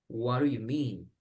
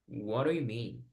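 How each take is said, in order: No difference in how they are said.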